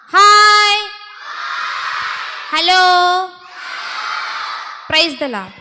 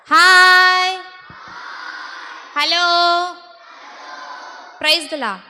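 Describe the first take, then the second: First: Loud, high drawn-out greetings; rousing call-out to a group of children; louder greeting call. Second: Call-out greeting. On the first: Shown as a demonstration. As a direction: belt out each greeting for the children to echo. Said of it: "சத்தமா சொல்லுவோமா". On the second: Real, not acted. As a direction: call out each greeting and leave room for a reply. Leading greetings before asking for louder.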